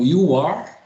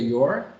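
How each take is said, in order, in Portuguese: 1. É dito como duas palavras completas. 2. Fica espremido em uma única sílaba contraída.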